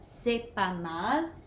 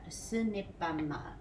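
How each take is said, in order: First: The word ne is dropped entirely. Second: The word ne is pronounced in full. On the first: "just drop this N and say c'est pas mal" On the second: "I'm going to show you how to spell it"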